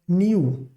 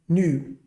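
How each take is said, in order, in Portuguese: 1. Há um som de 'y' antes da vogal. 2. Não há som de 'y' antes da vogal. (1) "A pronúncia não é new, como se fosse ni-u" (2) "mas new"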